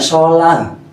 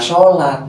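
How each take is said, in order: First: The word ends with an h sound. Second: The word ends with a t sound. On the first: The speaker calls it right. "bacanya sholan. Pakai H" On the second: The speaker calls it wrong. "nggak boleh baca sholat"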